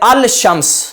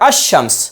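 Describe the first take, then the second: First: The l sound is clearly pronounced before sh. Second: The l sound merges into a doubled sh. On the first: The speaker calls it wrong. "तो यह दुरुस्त नहीं है" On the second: The speaker calls it right. "लाम साकिन हो जाएगा और इदगाम करके पढ़ेंगे"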